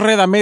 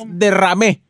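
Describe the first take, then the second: First: "redamé" with re- first, then d; mispronunciation. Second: "derramé" with de- first and a rolled rr; correct pronunciation. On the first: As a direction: say "redamé" as the slip being corrected. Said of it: "es derramé". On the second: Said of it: "no es redamé". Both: Shown as a demonstration.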